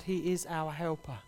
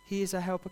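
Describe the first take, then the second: First: Slow and soft. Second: Said in the usual way. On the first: Shown as a demonstration. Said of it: "repeated line, slowed". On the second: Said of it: "repeated line, plain".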